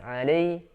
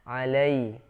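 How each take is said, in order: First: The first vowel is reduced and unclear. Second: The first vowel is clear and full. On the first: The speaker calls it wrong. "fathahnya kurang jelas" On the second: The speaker calls it right. "harus jelas"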